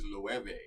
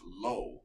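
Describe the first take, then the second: First: It does not sound like the word 'low'. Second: It sounds like the single word 'low'. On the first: The speaker calls it right. "This is Loewe, right?" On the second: The speaker calls it wrong. "a lot of people pronounce it Low"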